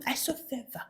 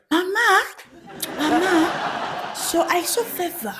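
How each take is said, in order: First: Whispered mock tattling; hushed church-gossip imitation; conspiratorial whisper. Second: High-pitched tattletale voice; high, hushed mock informer; church informant. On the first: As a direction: leak it in a secretive whisper. Informant confides gossip to mother. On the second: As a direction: imitate a tattler reporting to Mama. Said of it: "They'll be like".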